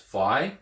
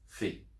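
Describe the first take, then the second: First: The letter name is said the familiar English way. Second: The letter name is said the Greek way. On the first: The speaker calls it wrong. "you might be used to hearing it as phi" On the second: The speaker calls it right. "but it's phi"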